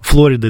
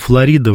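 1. Название произносится по-английски. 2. Название произносится по-русски. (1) "это больше по-английски" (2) "мы по-русски так говорим"

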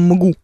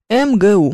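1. Буквы читаются вместе, как одно слово. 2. Каждая буква произносится по своему названию. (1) "Мы не говорим МГУ" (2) "произносим аббревиатуру по буквам"

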